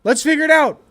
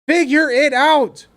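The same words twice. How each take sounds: First: Said in the usual way. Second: "Figure" slowed and stressed; slow emphatic. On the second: Shown as a demonstration. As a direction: spell it out slowly, word by word.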